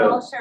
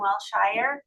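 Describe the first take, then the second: First: The last syllable is a short 'sher'. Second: The last syllable is a full 'shire'. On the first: "People say" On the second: "he probably would say, well, Shire"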